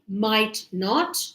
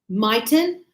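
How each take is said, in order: First: It is said as two full words. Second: It is said as one contracted word. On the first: "we said negative" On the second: "native English speakers, we say mightn't"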